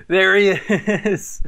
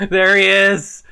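First: Slow drawn-out call. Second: Excited call. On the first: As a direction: stretch it out slowly. Same phrase drawn out. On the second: Freddy appears. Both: Real, not acted.

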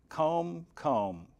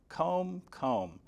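The two takes are said the same way.

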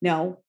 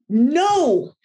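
First: Low, mild no; lovely at first. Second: Raised, higher no of a frustrated owner; irritated. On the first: Owner's first no to the puppy, still lovely. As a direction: keep the correction gentle and contained. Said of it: "we're all lovely at the beginning". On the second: Owner escalating with the puppy, irritated. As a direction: let the tone climb with frustration. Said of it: "And we get irritated". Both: Shown as a demonstration.

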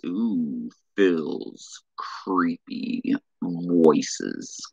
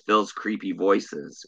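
First: Very slow, breathy creepy whisper. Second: Said in the usual way. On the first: Shown as a demonstration. Answering a viewer's request with a slow creepy whisper. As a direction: hiss it out slowly like a lurking ghoul.

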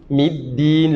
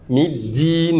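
First: Middin with the d placed where a t would be; slow, careful Middin; correct d. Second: Middin with the d in the wrong place; slow, mistaken Middin. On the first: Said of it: "mais c'est Middin". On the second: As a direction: say Middin the common, incorrect way. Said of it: "c'est pas Middin". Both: Shown as a demonstration.

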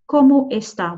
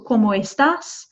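First: "¿Cómo está?" ending on an open stressed "ta"; formal "está", ending on the vowel; no final S. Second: "¿Cómo estás?" ending in a clear S; final S sounded. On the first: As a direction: leave the S off "está". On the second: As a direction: finish "estás" on a held s sound. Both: Shown as a demonstration. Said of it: "without the S there".

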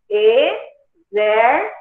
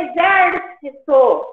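First: "Exército" very slowly, broken into syllables; "Exército" as e, xér, ci, to, with pauses. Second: Said in the usual way. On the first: Shown as a demonstration. Splits example word into syllables.

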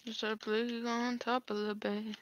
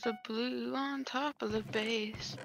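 First: Slow, soft ominous warning; dramatic slow voice. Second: Dramatic slow voice. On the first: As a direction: drag it out like a movie line. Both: Acted. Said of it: "That probably sounds so cringy".

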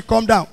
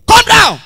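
First: Said in the usual way. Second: Calm down yelled high and loud; shouted calm down. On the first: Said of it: "policeman tell me". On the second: Retold or imitated. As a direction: bark calm down at him. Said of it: "First of all, no calm down".

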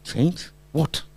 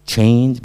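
First: Soft, rising "Change?" as a question; puzzled echo. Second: Said in the usual way. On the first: Retold or imitated. Teacher hearing the wife's hint, puzzled questioning of "Change". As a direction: echo "Change" back softly, baffled.

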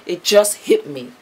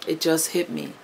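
First: Emotional. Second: It just hit me said softly, moved; emotional, softer. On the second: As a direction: let it sink in quietly. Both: Real, not acted. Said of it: "I'm getting emotional".

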